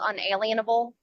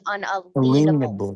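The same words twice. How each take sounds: First: The middle sounds like the word alien. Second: The middle sounds like the word lien. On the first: The speaker calls it wrong. "the word that everyone calls" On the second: The speaker calls it right. "proper pronunciation for it is"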